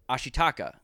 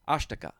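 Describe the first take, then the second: First: All four syllables are pronounced separately and clearly. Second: Syllables are shortened and run together, nearly three. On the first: "everyone in this movie calls him Ashitaka" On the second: "you'd say that more fluidly"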